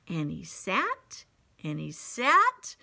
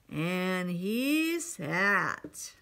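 First: Said in the usual way. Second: Very slow, stretched-out narration; slow drawn-out. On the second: A narrator's reading. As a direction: drag out each word, heavy and tired. Repeated line, slow drawn out.

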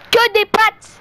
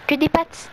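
First: High loud outburst; excited shout. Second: Said in the usual way. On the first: Real, not acted. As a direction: shout it out, amazed. Repeat, high loud exclaim.

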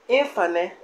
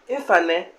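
Both takes have the same delivery.

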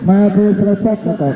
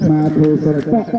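First: Slowed-down demo of the phrase; careful slower model reading; slow, deliberate repeat. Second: Said in the usual way. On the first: Shown as a demonstration. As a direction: say it slower, each word clear. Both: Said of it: "repeated phrase, second take".

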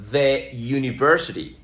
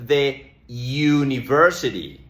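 First: "The university" again with "thuh"; "the university" repeated. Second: "the university" with "the" as "thuh"; "thuh university", weak vowel; "the" before a "you" sound. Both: Shown as a demonstration. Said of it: "Por eso decimos".

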